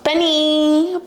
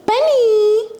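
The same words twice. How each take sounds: First: Raised, higher call across the room; calling the dog. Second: Much higher and louder shout of the name; sharp yell at dog. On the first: To her barking dog Benny, a rising call. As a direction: call the dog's name to get his attention. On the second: To her barking dog Benny, a sharp loud yell. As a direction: make the barking stop with one yell. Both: Real, not acted.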